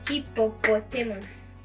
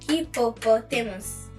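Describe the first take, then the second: The two takes are said the same way.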